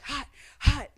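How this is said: It is said in a whisper.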